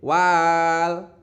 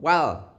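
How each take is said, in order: First: The vowel is drawn out longer than one beat. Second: The vowel is held for one short beat. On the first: The speaker calls it wrong. "tidak boleh" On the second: The speaker calls it right. "dibaca satu ketukan meskipun ada alif"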